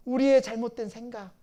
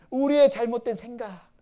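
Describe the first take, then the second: No difference in how they are said.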